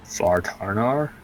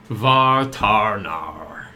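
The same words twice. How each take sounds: First: Vartarnar? repeated slowly with a questioning rise; echoing the name. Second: Vartarnar stretched out slowly, every syllable held; drawn-out name. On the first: Real, not acted. Player repeating the strange name back, slow and unsure. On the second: Acted. Introducing Vartarnar to the hunters, slow and drawn out. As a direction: say Vartarnar very slowly, rolling each part. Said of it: "this is".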